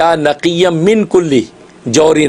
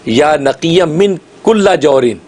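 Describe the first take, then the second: First: The word after 'min' ends in an 'i' vowel. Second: The word after 'min' ends in an 'a' vowel. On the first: "कुल्ली के लाम के नीचे ज़ेर है" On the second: "आपने अब इसके ऊपर ज़बर पढ़ना है"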